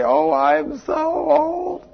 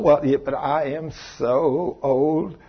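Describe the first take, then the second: First: Much higher, slow, exaggerated whine; hammed-up lament. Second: Slow, soft, put-on whine about age; mock whining. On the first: Preacher mocking a woman's lament about age, hammed-up whine. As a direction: wail it like a melodrama. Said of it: "I hear people talking like that". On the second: Preacher mimicking a woman fretting about forty, mock whine. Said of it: "imitated woman complaining".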